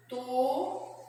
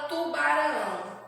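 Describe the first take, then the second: First: "Tubarão" split as tu-ba-rão with long pauses; syllable by syllable. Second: Said in the usual way. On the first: Shown as a demonstration. Teacher separating a word for children, "Tubarão" syllable by syllable. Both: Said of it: "nós vamos separar as sílabas".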